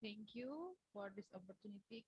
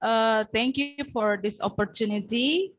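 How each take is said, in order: First: Faint and far from the mic; speaking much too softly to be heard; barely audible. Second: Raising the voice for a bad line; projecting so the room can hear; speaking louder. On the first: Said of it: "Could you speak louder?". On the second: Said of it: "Speak louder, please". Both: Real, not acted.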